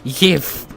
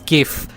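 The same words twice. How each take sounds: First: The word begins with a soft j sound. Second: The word begins with a hard g sound. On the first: The speaker calls it wrong. "It's not GIF" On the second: The speaker calls it right. "It has always been fucking GIF. It's the graphics interface interchange"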